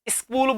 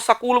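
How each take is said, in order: First: It starts with an ee vowel before the s. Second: It starts directly with the s sound. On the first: This is how the listener says it. "ई की sound निकालते हो" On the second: This is how people in one region say it. "तो article a लगाएंगे"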